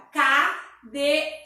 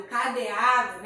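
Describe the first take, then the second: First: Cadeado broken into ca, de, a, do; syllable by syllable. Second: Said in the usual way. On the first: Shown as a demonstration. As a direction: say cadeado in four separate beats. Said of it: "quatro sílabas". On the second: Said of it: "Então, fica cadeado".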